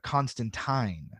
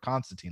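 First: The name is pronounced the British way. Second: The name is pronounced the American way.

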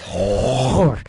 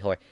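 First: The word is said with a disgusted inflection. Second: The word is said in a plain, casual way. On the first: "I make it sound disgusting for some reason"

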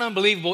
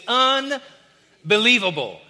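First: The word is said in a flat, discouraged tone. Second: The word is said in a lively, excited tone. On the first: Life is unbelievably bad. The speaker calls it wrong. "It's not unbelievable" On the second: Life is unbelievably good. The speaker calls it right. "It's unbelievable"

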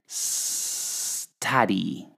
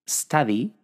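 First: The first s sound is held very long. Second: The first s sound is short and normal. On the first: "tenéis que decir study" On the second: "que sería ya el resultado final"

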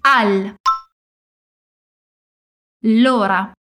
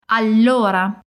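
First: The word is broken into two parts. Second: The word is said in one piece.

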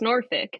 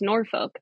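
First: The name is pronounced the local Virginia way. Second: The name is pronounced the Colorado way. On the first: The speaker calls it right. "I had to learn that it's Norfolk" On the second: The speaker calls it wrong. "that's how I would say it in Colorado"

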